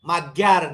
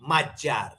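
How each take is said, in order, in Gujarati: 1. વચ્ચેનો વ્યંજન g-y જેવો સંભળાય છે. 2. વચ્ચેનો વ્યંજન j જેવો સંભળાય છે. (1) "માગ્યાર નહીં" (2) "એમનું નામ આ રીતે ત્યાં ઉચ્ચારાય છે"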